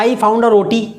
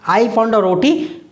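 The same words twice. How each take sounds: First: Said in the usual way. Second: I found a roti said slowly, word by word; slow dictation. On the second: Shown as a demonstration. Teacher repeating the example sentence slowly for students to copy. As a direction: spell it out slowly for the class.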